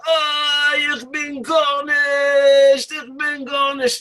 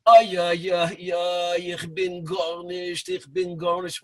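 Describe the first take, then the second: First: High, very slow drawn-out shout; yelling. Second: Put-on old world Yiddish murmur. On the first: Retold or imitated. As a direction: bellow it across the room, much higher and stretched. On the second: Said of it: "give it the old world flavor".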